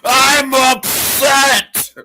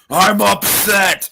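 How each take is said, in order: First: It is yelled at the highest volume. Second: It is said loudly, raising the voice. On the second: "Say it louder"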